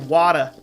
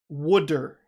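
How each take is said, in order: First: The word is said in a Boston accent. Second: The word is said in a New Jersey accent. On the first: "It's kind of like Boston. They say Wada. That Boston accent" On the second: "along with lots of other New Jersey people, pronounce it Wooder"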